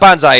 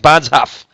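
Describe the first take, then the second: First: The word ends in an 'eye' sound. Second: The word ends in an 'off' sound. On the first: The speaker calls it wrong. "It's not bonsai" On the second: The speaker calls it right. "It's bonzoff. I think"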